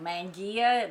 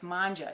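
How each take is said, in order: First: The word is pronounced fully, as it is spelled. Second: The word is pronounced shortened, unlike its spelling. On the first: The speaker calls it wrong. "the way it looks like it's pronounced. It's not" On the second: The speaker calls it right. "It's manja"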